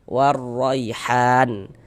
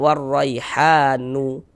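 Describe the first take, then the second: First: The word ends on a silent n sound. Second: The word ends with an added u vowel. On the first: The speaker calls it right. "kalau berwakaf di huruf nun kita baca warraihan" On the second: The speaker calls it wrong. "Jangan dibaca warraihanu"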